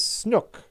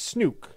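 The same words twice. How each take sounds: First: The vowel does not sound like nuke. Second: The vowel sounds like the one in nuke. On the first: The speaker calls it wrong. "pronounces my username slightly wrong" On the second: The speaker calls it right. "really it's Snook, like nuke"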